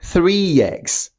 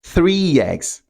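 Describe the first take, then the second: First: The two words are joined by a glide. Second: The two words are joined by a glide.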